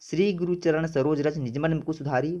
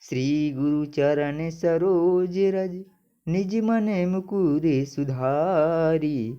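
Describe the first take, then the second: First: It is read plainly without a metrical rhythm. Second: It is read with a steady metrical rhythm.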